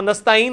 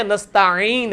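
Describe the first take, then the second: First: نستعین quick with a plain vowel, "nasta-een"; mispronounced. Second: نستعین slowed, with a throaty squeeze before "een"; correct 'ain. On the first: Teacher shows the wrong reading, mispronounced. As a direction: skip the throat sound in نستعین. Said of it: "وہ نستعین نہیں ہے". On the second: Teacher corrects the class's reading, correct 'ain. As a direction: lean into the pharyngeal 'ain in نستعین. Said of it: "عین ہے". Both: Shown as a demonstration.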